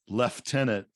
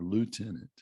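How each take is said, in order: First: It uses a British pronunciation. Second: It uses an American pronunciation. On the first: The speaker calls it wrong. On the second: The speaker calls it right.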